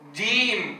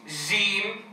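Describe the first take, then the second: First: The first consonant is hard and stopped. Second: The first consonant is soft and fricative. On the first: The speaker calls it right. "وإنما أقول جيم" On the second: The speaker calls it wrong. "فلا أقول له جيم جيم"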